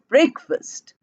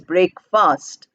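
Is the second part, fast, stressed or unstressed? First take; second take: unstressed; stressed. First: Only the first part, break, is stressed. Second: The second part, fast, is also stressed. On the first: The speaker calls it right. "Break gets stress, fast doesn't get stressed" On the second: The speaker calls it wrong. "it is not pronounced as breakfast"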